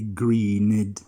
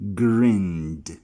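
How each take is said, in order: First: The ending is an extra 'id' syllable. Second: The ending is a plain D sound. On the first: The speaker calls it wrong. "never are you going to say greened" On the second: The speaker calls it right. "The E D sound is going to sound as D"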